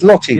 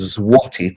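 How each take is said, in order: First: The word is said with an L sound. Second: The word is said with a W sound.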